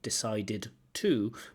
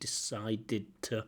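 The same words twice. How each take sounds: First: Each word is said separately and fully. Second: The words run together as connected speech. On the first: "they're not decided to" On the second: "so connected speech"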